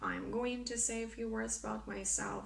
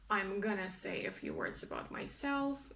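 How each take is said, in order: First: 'Going to' is said as two full words. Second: 'Going to' is reduced to 'gonna'. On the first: "instead of" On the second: "try to make contractions if possible"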